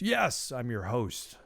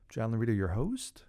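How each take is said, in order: First: It sounds confident, like a firm statement. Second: It sounds unsure, like a question.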